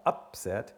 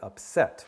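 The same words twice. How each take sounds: First: The stress is on the first syllable. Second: The stress is on the last syllable. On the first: The speaker calls it wrong. "c'est pas upset" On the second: The speaker calls it right. "L'accent tonique est toujours sur la dernière syllabe"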